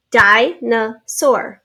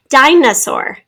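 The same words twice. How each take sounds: First: Dinosaur very slowly, as DI, NO, SAUR; slow three-beat sounding out; in syllables. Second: Said in the usual way. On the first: Shown as a demonstration. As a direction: say Dinosaur with a gap after each syllable. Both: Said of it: "Three syllables".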